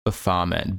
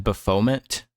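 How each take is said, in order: First: Baphomet as buh-FAH-ment; F-sound pronunciation. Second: Baphomet as buh-FOE-ment, rising; Baphomet, unsure, "buh-FOE-ment?"; alternative pronunciation. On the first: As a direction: say Baphomet with an F and stressed open AH. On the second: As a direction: question Baphomet with a long O in FOE. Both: Shown as a demonstration. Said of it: "I think it's an F sound".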